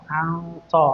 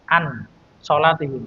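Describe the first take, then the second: First: The n is hidden as a nasal sound. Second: The n is pronounced fully and clearly. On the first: "jadi ikhfa" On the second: "tidak dibaca ikhfa"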